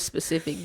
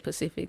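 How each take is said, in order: First: The word begins with an s sound. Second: The word begins without an s sound. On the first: The speaker calls it right. "the word is specific" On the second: The speaker calls it wrong. "Do not say Pacific"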